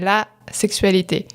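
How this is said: There is a pause after 'la' before 'sexualité'. The word means sexuality. "on fait une pause pour les distinguer"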